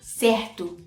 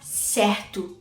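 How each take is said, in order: No difference in how they are said.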